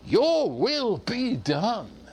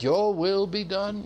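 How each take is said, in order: First: It sounds eager and enthusiastic. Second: It sounds resigned and submissive.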